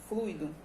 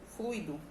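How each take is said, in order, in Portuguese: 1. O u e o i formam uma só sílaba, um ditongo. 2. O u e o i formam uma só sílaba, um ditongo.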